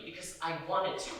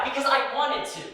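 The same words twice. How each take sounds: First: Said in the usual way. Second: Higher and louder, insisting hard on wanted; defiant repeat. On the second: Retold or imitated. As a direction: throw it back at him, refusing to back down.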